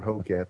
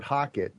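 First: HOCAT said as HOE-cat; long O in Hocat, full "cat" ending; accepted variant pronunciation. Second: HOCKET said as HOCK-it; short first vowel in Hocket, light "it" ending; maker's pronunciation. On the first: Guest allowing the host's version, variant pronunciation. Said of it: "if you wanna call it Hocat". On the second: Guest telling host the company's name for it, preferred pronunciation. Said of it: "we call it Hocket". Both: Shown as a demonstration.

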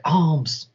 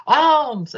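First: Said in the usual way. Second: High, elated exclamation; joyful cry. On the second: Acted. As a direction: cry it out high as if landing on treasure. Native lands on money pile.

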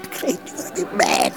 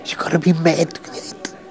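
First: Breathy whisper, pitch dropped. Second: Said in the usual way. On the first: Acted. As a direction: whisper it like a secret. Repeats the line, second time whispered.

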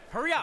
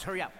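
First: Louder repeat, pushing him; hurry up shout. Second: Said in the usual way. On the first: Acted. Coach hurries player fetching shoes, louder repeat. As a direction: snap it louder the second time.

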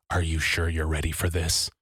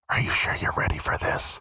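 First: Low eerie murmur. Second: A soft voiceless whisper; creepy whisper. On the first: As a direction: lower and softer, a creepy murmur. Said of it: "whisper into my ear". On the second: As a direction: breathe it into someone's ear. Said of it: "I heard her whisper". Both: Retold or imitated.

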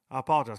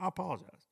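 First: Said in the usual way. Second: Softer apology. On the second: Shown as a demonstration.

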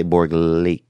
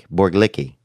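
First: "Borglik" as two syllables, ending in a long "leek"; trying out a pronunciation. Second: "Borglicki" as three syllables, ending in "-licky"; alternative pronunciation. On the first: Host sounding out a listener's surname, "Borglik" ending in "-leek". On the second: Host retrying a listener's surname, "Borglicki" with an extra "-ee" ending. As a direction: say "Borglicki" with an added final "ee". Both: Real, not acted. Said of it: "I'm sorry I'm butchering your name".

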